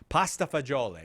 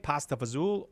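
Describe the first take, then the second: First: The second word is said in full, 'fagioli'. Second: The second word is shortened to 'fazool'. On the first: "that other way" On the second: "the [name] way"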